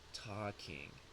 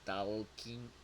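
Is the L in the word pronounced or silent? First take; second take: silent; pronounced. First: The L sound is silent in the word. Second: The L sound is pronounced in the word. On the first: The speaker calls it right. "It is talking" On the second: The speaker calls it wrong. "we never say the L sound. It is not talking. That is not correct"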